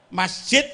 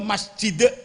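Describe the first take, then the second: First: The word ends with a t sound. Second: The word ends with a d sound. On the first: "pakai tak" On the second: "pakai dal"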